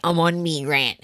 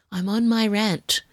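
First: "I'm on me rant" with "me" in place of my; jokey "me" for my. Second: Said in the usual way. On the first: Pretend. Host catching herself mid-rant, saying "me" for my. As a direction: say "me rant" like a cheeky slang voice. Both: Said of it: "Who am I?".

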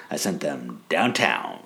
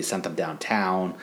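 First: Slow, pointed stress on "downtown"; Randy. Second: Said in the usual way. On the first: Retold or imitated. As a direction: draw out "downtown" as if it were code, dropping at the end. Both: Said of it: "Why are you saying it like that?".

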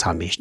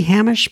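First: "Hamish" with a short "uh", said low and quickly; preferred pronunciation. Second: "Hamish" with a flat a, as in "ham", plus a short "ish"; one guess at the name. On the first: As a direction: say "Hamish" as HUM-ish, the first vowel as in "hum". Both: Shown as a demonstration. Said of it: "I got a feeling it's Hamish".

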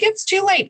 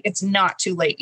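First: High, mocking voice for the doubt; naysayer's line. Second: It's NOT too late, not pressed firm; stress on not. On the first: Host's guest mocks the naysayers, high mocking tone. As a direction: toss off the doubter's claim. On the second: Guest answers the naysayers, firm stress on not. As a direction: correct the doubt by pressing not. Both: Shown as a demonstration.

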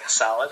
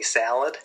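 First: Said in the usual way. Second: "salad" with a flat, nasal Rochester A; Rochester accent salad. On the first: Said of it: "instead of". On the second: Shown as a demonstration. Guest demoing his fiancée's Rochester accent, flat nasal A. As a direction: say "salad" the upstate New York way, nasal and flat. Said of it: "it's very nasally up there".

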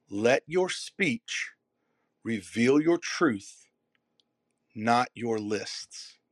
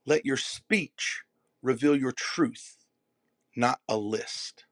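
First: Each phrase slow, punched on your; slow emphatic repeat. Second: Slow, weighted. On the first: Repeating the line slowly for the audience. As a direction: lay it out slowly, stressing your. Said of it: "One more time". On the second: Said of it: "slow, deliberate delivery". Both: Shown as a demonstration.

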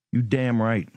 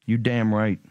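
No difference in how they are said.

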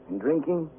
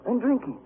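First: "And drinking" moderately raised; trailing repeat. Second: "And drinking" pitched way up; emphatic repeat. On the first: Prisoner recounting his binge, subsiding "And drinking". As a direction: bring "And drinking" down from the peak, still lifted. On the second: Prisoner recounting his binge, high emphatic "And drinking". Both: Acted.

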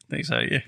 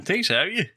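First: Said in the usual way. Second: Lifted high on a rising, worn-out tone; mock exhausted. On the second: Tired football fan hamming up exhaustion, voice pitched higher. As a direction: play up being drained, voice climbing at the end. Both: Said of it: "I'm gonna get lost my voice a wee touch".

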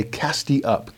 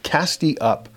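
First: Said in the usual way. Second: "cast ye up" lifted higher, stress on "ye"; the second "cast ye up" climbs in pitch; rising call. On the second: Acted. The repeated call rises.

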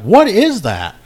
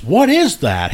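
First: "What is that?" higher and louder, punched on "What"; loud disbelieving outcry, pitched up; baffled outcry. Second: Baffled question. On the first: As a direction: yelp it out, shocked. Baffled brother asks again, louder. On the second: Baffled brother asks about doll. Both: Retold or imitated.

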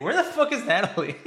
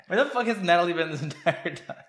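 First: Laughing disbelief. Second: Laughing. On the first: Laughing disbelief at missing character. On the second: Repeats question laughing. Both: Real, not acted.

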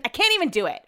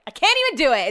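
First: Said in the usual way. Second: Louder, higher exasperated repeat; can't-even outburst. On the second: Real, not acted. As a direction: throw up your hands at it.

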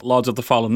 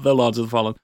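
First: Said in the usual way. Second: THE set apart to mark the different title; stress on THE. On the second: Shown as a demonstration. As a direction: lean on the first "The" in the title. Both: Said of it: "not The Lords of the Fallen".

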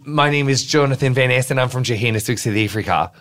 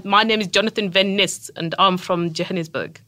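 First: A wobbly South African accent drifting Australian; South African accent attempt. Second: Proper South African with clipped vowels; South African accent. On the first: Guest shows off a South African line to cohost. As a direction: try a South African accent, not quite there. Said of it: "I can do a really good South African sentence". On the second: Guest corrects host's South African accent. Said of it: "get your vowels a little more clipped". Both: Shown as a demonstration.

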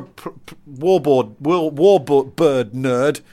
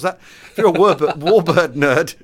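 First: Slow, effortful attempt at a tongue-twister; stumble, then pick through it very slowly; tripping over words. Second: Louder, quicker, breaking into a laugh; laughing retry. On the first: Podcaster wrestling with a tricky phrase, slow and tongue-tied. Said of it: "it's more difficult than I thought it was". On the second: Podcaster retrying a tongue-twister, amused and laughing. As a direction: have another go, laughing at your own stumble. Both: Real, not acted.

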